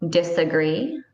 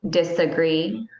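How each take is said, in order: No difference in how they are said.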